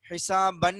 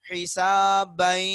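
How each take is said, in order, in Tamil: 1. சொல் தெளிவான n ஒலியில் முடிகிறது. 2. n ஒலி நாசியாக்கப்பட்ட y ஒலியுடன் கலக்கிறது. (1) "ஹிசாபன்னு படிக்க கூடாது" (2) "ஹிசாபை இந்த மூக்குல இருந்து வருது பாத்தீங்களா? இந்த சத்தம் தான் குன்னா"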